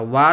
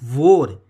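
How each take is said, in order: First: The vowel is an open 'ah' sound. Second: The vowel is a rounded 'aw' sound. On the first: The speaker calls it wrong. "वार अगर कोई बोलता है तो वो गलत wording है" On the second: The speaker calls it right. "Actually में ये होता है वोर"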